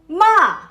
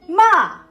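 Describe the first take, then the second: Both takes have the same delivery.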